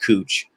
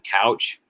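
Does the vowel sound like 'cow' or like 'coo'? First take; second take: coo; cow. First: The vowel sounds like the one in 'coo'. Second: The vowel sounds like the one in 'cow'. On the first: The speaker calls it right. "it's actually pronounced cooch" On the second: The speaker calls it wrong. "looks like it's spelling couch"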